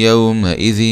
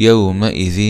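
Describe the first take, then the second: The two takes are said the same way.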